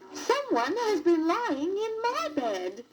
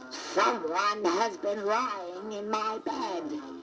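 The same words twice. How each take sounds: First: It is said in a medium-pitched voice. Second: It is said in a deep, growling voice.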